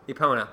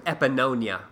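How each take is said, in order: First: The name is said without an extra syllable. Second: The name is said with an extra syllable. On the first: The speaker calls it right. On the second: The speaker calls it wrong.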